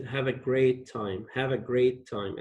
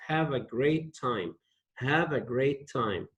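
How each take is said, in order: First: Said in the usual way. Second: "Have a great time" said gently, easing off at the end; modelled wish. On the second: Shown as a demonstration. Teacher to class, modelling the wish gently. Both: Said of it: "And say it like this".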